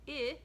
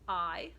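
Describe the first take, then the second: First: The letter is said as a short i, as in iguana. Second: The letter is said as a long i, as in ice. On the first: "And I, like iguana" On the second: "It says I, like ice"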